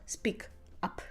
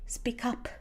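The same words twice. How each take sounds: First: The two words are said separately. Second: The two words run smoothly together. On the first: The speaker calls it wrong. "not speak up" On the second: The speaker calls it right. "We connect the parts of the phrasal verb together. We say speak up"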